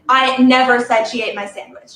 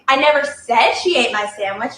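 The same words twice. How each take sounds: First: The stress is on "never". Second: The stress is on "said".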